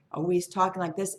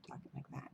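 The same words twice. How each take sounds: First: Lightly puffed-up, lively delivery; inflated talk. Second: Very soft, barely voiced imitation of a plea; pleading. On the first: Retold or imitated. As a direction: imitate someone talking himself up. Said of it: "inflating it". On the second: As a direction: shrink to a near-whisper, as if praying. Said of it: "That's a plea. That's a prayer".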